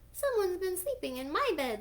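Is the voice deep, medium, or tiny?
tiny. The voice is tiny and squeaky. "squealed Baby Bear in his wee little voice"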